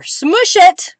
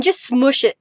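First: High-pitched playful outburst; playful exclamation. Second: Said in the usual way. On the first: Real, not acted. Playful exclamation while pressing ink.

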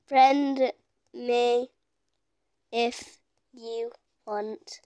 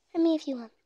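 First: Slow, halting, fading softer; one word at a time, as if typing; typing aloud. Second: Said in the usual way. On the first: Real, not acted. Sounding out words while typing.

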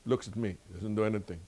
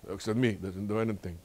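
No difference in how they are said.

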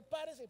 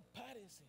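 First: Firm, raised instruction; quoted order. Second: Soft, dropped, matter-of-fact delivery; quiet compliance advice. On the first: Usher telling a church member to stand, firm. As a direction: give it as someone else's command. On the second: Preacher advising a member to just stand, soft. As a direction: let it fall away as simple obedience. Advice to simply obey the order. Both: Acted.

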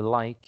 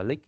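First: Said in the usual way. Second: "like" said as "lick", short i; mispronounced like. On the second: Shown as a demonstration. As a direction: say "like" wrongly, rhyming with "pick". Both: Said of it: "không ai đọc là lick".

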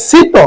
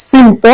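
First: শীত as "sito", no nasal before the t; plain "si-to" for শীত, m silent; expected silent m. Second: সিন্ত with a nasal m sound, not "sito". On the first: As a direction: say শীত with the m dropped. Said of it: "উচ্চারণ হওয়ার কথা ছিল". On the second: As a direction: say সিন্ত keeping the nasal consonant. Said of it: "কিন্তু হবে". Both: Shown as a demonstration.

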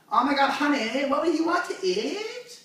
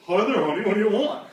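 First: High mock girly voice, rising to the end; exaggerated squeaky couple talk; annoying girlfriend. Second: Louder mock-boyfriend voice, not pitched up; exaggerated doting boyfriend; annoying boyfriend. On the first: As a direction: imitate a gushing girlfriend, stretched and pitched up. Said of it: "there's two of them". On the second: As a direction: imitate her equally irritating man. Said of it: "here's her boyfriend".

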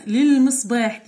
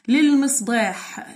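First: Said in the usual way. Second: للمصباح drawn out syllable by syllable; slow teacher demo. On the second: Shown as a demonstration. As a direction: spell it out slowly by sound.

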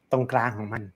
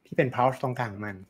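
First: Said in the usual way. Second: ที่เป็น pulse ตรงกลางของมัน said slowly, each word weighed; slow emphasis. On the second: Shown as a demonstration. Teacher repeats the phrase slowly to a piano student. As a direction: lean slowly on pulse to make the point. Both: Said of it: "ตรงเนี้ยเราจะต้องควรได้ยิน".

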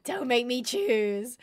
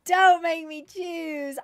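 First: Said in the usual way. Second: Slow, louder, higher anguished wail; anguished plea. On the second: Real, not acted. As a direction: drag it out as if torn between pets. Agonised over favourite pet.

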